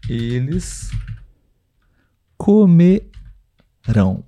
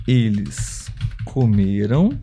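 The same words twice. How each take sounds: First: COMERÃO very slow, split before a stressed RÃO; stress on last syllable. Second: Slow, soft COMERAM stressed on ME. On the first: Teacher saying it while typing for viewers, drawn-out final stress. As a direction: break comerão apart and land on RÃO. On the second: Teacher saying it while typing for viewers, middle-syllable stress. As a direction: spell out comeram slowly, weight on the middle. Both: Shown as a demonstration. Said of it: "porém a sílaba tônica é diferente".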